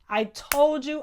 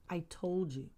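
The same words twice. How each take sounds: First: Loud told-you. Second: Told you again, dropped to a murmur; a soft, satisfied I told you; quiet told you. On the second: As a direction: let it fade into a soft murmur. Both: Real, not acted. Repeating I told you, fading.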